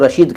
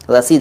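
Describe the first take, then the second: First: The middle consonant is an 'sh' sound. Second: The middle consonant is an 's' sound. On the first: The speaker calls it wrong. "कुछ लोग उसको रशीद कह देते हैं। रशीद मत कहा करो" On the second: The speaker calls it right. "रसीद है वो"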